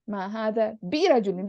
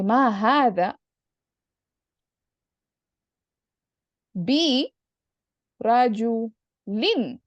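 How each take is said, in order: First: Said in the usual way. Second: "ma hada ... bi ... rajulin" in separate pieces with long pauses; extra emphasis. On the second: Shown as a demonstration. Teacher building an emphatic negation for the student, extra emphasis. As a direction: draw out "rajulin" very slowly after a pause on "bi". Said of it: "add even extra emphasis".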